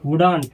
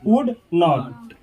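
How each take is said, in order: First: 'Not' is reduced and attached to the verb. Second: 'Not' is a separate, full word.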